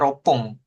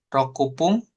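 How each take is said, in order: First: 'Roku' is shortened to 'ro' before 'pun'. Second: The full syllables 'roku' come before 'pun'. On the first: The speaker calls it right. "adanya ropung" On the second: The speaker calls it wrong. "rokupung nggak ada ya"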